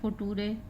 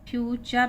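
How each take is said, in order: First: The middle consonant is a plain 't' sound. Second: The middle consonant is a 'ch' sound. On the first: The speaker calls it wrong. "फुटूरे नहीं है, बच्चे इसको फुटूरे पढ़ जाते हैं" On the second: The speaker calls it right. "ये फ्यूचर उच्चारण है"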